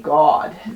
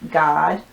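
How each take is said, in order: First: The vowel sounds like the one in 'dot'. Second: The vowel sounds like the one in 'father'. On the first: "this one would could be like Dot" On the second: "this one could also be like Father"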